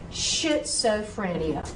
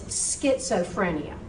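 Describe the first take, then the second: First: The word begins with an sh sound. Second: The word begins with an sk sound. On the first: The speaker calls it wrong. "You would not have said schizophrenia, would you?" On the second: The speaker calls it right. "S C H, is an S K sound"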